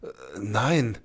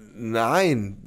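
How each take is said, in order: First: Lightly gasped, hesitant no; a touch of shocked gasping. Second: A drawn, rising-falling no of protest; dismissive denial. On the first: Sepp grasps what Sybil means, gasping. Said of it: "keuchte er dann". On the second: Sepp fends off Sybil's taunt, defensive. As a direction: fend the question off. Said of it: "wehrte Sepp ab". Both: A narrator's reading.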